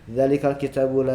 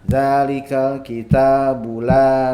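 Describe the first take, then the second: First: Every vowel is short. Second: Some vowels are long and others short. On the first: The speaker calls it wrong. "itu semuanya satu harokat" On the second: The speaker calls it right. "Yang dua harokatnya itu beda"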